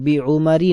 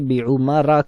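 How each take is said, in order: First: The word ends with a short 'i' vowel. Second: The word ends with a short 'a' vowel. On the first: The speaker calls it wrong. "बी उमरी नहीं कहते" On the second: The speaker calls it right. "बल्कि बी उमरा कहते हैं"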